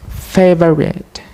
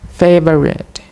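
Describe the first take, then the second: The two takes are said the same way.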